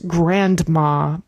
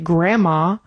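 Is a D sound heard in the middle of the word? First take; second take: yes; no. First: The word is said with a clear D sound. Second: The word is said without a D sound. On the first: "and not grandma, because having a D in the middle of the word makes it a little bit difficult" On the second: "it's much more common to say grandma"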